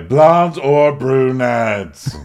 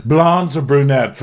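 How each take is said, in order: First: Very slow, stretched, louder question; drawn-out insistence. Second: High, slowed mock questioning; pointed question. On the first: Retold or imitated. Kenya repeating her demand to John, drawn-out insistence. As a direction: drag out each word in a raised voice. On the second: Kenya pressing John on his type, pointed mock question. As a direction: press the choice in a raised voice. Mimicked demand, first take.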